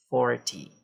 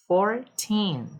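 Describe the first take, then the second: First: FORty, stress on FOR; stress on the start. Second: Put-on fourTEEN, stress on TEEN; stress on the end. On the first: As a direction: hit the first syllable of forty. (ênfase na primeira sílaba) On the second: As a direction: hit the last syllable of Fourteen. (ênfase na última sílaba) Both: Shown as a demonstration. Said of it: "stress the first syllables".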